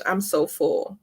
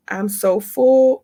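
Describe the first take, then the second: First: Said in the usual way. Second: I'm so full stretched slow and louder; overflowing, slow and emphatic; drawn out. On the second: Real, not acted. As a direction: savor I'm so full, slowly and loud.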